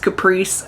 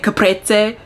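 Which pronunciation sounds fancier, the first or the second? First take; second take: first; second. First: The word has a plainer, everyday pronunciation. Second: The word has a fancier-sounding pronunciation. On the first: Most people say it this way. "everyone else says caprese" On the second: It sounds fancier but may not be correct. "I say caprese because I feel like it's fancier"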